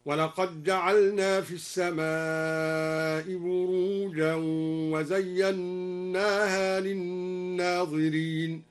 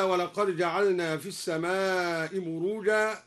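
First: ولقد جعلنا read as walaqaj-ja'alna, slow; slow chant with the dal assimilated; dal merged into jim. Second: ولقد جعلنا with a clear d; plain reading of ولقد جعلنا; ولقد جعلنا plainly. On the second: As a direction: recite ولقد جعلنا with the dal sounded. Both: Shown as a demonstration. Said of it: "أدغم الدال في الجيم هكذا".

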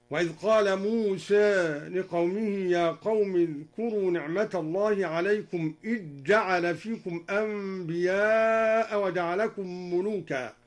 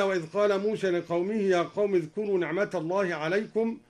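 First: "موسى" tilted toward e, "إذ جعل" merged into a doubled j; taqlil and idgham. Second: Said in the usual way. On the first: Shown as a demonstration. Reciter showing al-Duri's reading, taqlil on "موسى", assimilated "إذ جعل". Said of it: "قلل موسى وأدغم الذال في الجيم". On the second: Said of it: "قلل موسى وأدغم الذال".

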